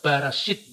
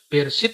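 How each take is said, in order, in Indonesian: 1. Vokal pertama berbunyi 'a', 'Barashit'. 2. Vokal pertama berbunyi 'e', 'Bereshit'. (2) "Bereshit itu"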